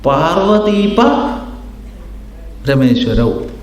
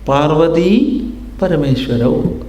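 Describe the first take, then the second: First: The break falls after the syllable pa. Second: The break falls before the syllable pa. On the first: It means Shiva and Vishnu. "വേറൊരാൾ വിഭജിച്ചു" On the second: It means Parvati and the Supreme Lord. "ഒരാൾ വിഭജിച്ചു"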